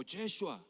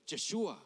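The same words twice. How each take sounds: First: Yeshua offered as a second variant; alternative Hebrew pronunciation. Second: Yeshua said slowly as a Hebrew name; Hebrew pronunciation. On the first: Preacher giving another form, Yeshua pronounced carefully. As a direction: sound out Yeshua as the other way to say it. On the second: Preacher showing Jesus' Hebrew name, Yeshua pronounced carefully. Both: Shown as a demonstration. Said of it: "Jesús se pronuncia".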